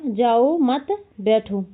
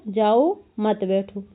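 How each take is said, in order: First: "जाओ मत", clear pause, then "बैठो"; pause after मत. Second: "जाओ", pause, then "मत बैठो" as one group; pause after जाओ. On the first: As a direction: slowly join "जाओ" to "मत", hold back "बैठो". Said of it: "उसने कहा". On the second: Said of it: "उसने क्या सुन लिया?". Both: Shown as a demonstration.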